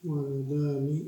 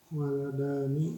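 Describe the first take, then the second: The two takes are said the same way.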